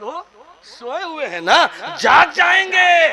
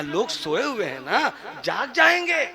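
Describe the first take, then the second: First: Louder mock warning. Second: Much softer, half-laughing hush; hushed warning. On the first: Shown as a demonstration. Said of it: "repeated louder for contrast". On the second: Acted. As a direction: hush her, people are sleeping. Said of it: "कहा". (धीमी, हँसी भरी फुसफुसाहट जैसी चेतावनी)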